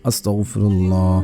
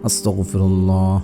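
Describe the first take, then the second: Both takes have the same delivery.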